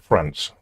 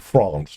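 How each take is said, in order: First: It is said in a plain accent. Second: It is said in a posh accent. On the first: This is how ordinary people say it. "I'll go France" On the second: This is how posh people say it. "That's how the posh people say it. They go France"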